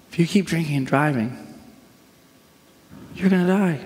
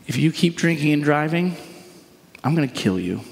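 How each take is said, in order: First: Pleading caution rather than menace; warning. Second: Threatening. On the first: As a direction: warn them of the consequence, lifting the last phrase. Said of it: "This is a warning". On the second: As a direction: deliver it as a threat, dropping pitch at the end. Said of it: "Do you hear the threatening nature of that?". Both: Shown as a demonstration.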